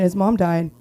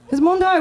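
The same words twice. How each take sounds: First: Said in the usual way. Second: Higher, louder mock-sympathetic repeat; mock pity. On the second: Shown as a demonstration. Repeating his line to the crowd, mock pitying. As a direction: say it again as a fake excuse.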